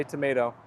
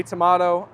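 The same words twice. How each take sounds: First: "tomato" with an ay vowel; "tomato" as to-may-to. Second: "tomato" with a broad ah; "tomato" as to-mah-to. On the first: Streamer giving their own way, "tomato" as to-may-to. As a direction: say "tomato" lower, middle rhyming with day. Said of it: "I say tomato". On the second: Streamer quoting the other side, "tomato" as to-mah-to. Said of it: "You say tomato". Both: Shown as a demonstration.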